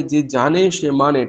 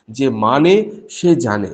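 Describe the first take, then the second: First: Said in the usual way. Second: "যে মানে সে জানে" slowly, each word placed, low; slow weighty reversal. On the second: Shown as a demonstration. Preacher sets Thakur's reversal against the saying, slow. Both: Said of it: "ঠাকুর একদম উল্টো কথা বলেছিলেন".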